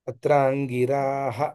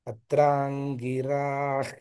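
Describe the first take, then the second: First: The word ends with a full 'ha' sound. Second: The word ends with a bare 'h' sound. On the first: The reciter pauses after the word. "అని ఆపుకుంటే పర్వాలేదు" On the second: The word runs straight into the next one. "ఆపకుండా ఉన్నప్పుడు కలిపి చెప్పేటప్పుడు"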